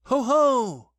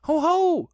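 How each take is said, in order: First: Sudden high, loud call; startling, booming hail. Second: Very high, loud little yell; small creature's loud challenge; fierce as possible. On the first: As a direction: burst out loudly. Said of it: "said Christopher Robin loudly and suddenly". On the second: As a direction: try hard to sound fierce in a squeaky voice. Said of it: "as fiercely as he could". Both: A narrator's reading.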